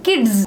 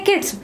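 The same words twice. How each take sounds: First: The word ends in a buzzing z sound. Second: The word ends in a hissing s sound. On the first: The speaker calls it right. "but it is actually z sound" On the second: The speaker calls it wrong. "when we add s to it, we say kids"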